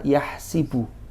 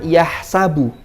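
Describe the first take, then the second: First: The vowel after the s is i. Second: The vowel after the s is a. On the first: This is another accepted reading. "wa bi kasriha" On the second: This is one accepted reading. "bi fathis sin"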